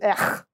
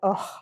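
First: It is a disgusted, repulsed ugh. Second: It is a frustrated, sighing ugh.

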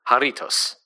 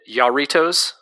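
First: The R is rolled. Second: The R is not rolled. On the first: The speaker calls it right. "it's Jarritos, roll the R" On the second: The speaker calls it wrong. "last time we talked about them, we both pronounced it Yarritos"

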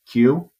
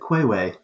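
First: The word is said as one syllable. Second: The word is said as two syllables. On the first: The speaker calls it right. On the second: The speaker calls it wrong.

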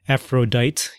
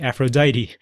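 First: The final e is silent, ending on a consonant. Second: The final e is sounded, ending on a vowel. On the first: The speaker calls it wrong. "you don't say Aphrodite" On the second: The speaker calls it right. "you say Aphrodite"

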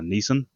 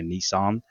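First: The name is said the speaker's Australian way. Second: The name is said the American way. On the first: "now known as Nissan" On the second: "or I guess you guys pronounce it here"

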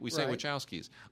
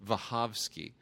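First: The name is pronounced the usual English way. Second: The name is pronounced the Polish way. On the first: This is the form most people recognize. The speaker calls it wrong. "we say Wachowskis" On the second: This is how a Polish speaker would say it. The speaker calls it right. "who said it's pronounced Wachowski"

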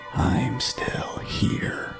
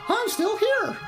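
First: It is said in a slow, eerie, ghostly voice. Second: It is said in a bright, cheerful, playful voice. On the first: A ghost is speaking. "maybe it didn't sound that ghostly" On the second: A friendly presence is speaking. "maybe it was more like"

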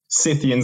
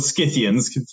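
First: The word begins with a plain 's' sound. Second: The word begins with an 'sk' sound.

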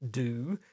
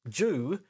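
First: The word begins with a plain 'd' sound. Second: The word begins with a 'j' sound. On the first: "if you pronounce the word D-E-W, do"

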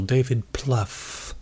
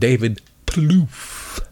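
First: The surname has a short 'uh' vowel, like 'stuff'. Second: The surname has a long 'oo' vowel, like 'roof'. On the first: "I've heard Pluff, which is still relaxing and comfortable" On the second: "But I think it's funnier to go with David Plouf"

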